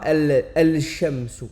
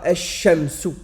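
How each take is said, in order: First: The l is pronounced before the sh. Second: The l is silent; the sh is doubled. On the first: The speaker calls it wrong. "on dira pas el-shamsu" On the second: The speaker calls it right. "on va en fait rendre muet une lettre pour pouvoir faciliter sa prononciation"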